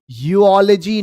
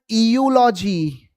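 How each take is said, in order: First: The word begins with a 'yoo' sound. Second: The word begins with an 'eh' sound. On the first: The speaker calls it right. "E has to be silent" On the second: The speaker calls it wrong. "not eulogy"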